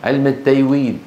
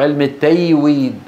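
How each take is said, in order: The two takes are said the same way.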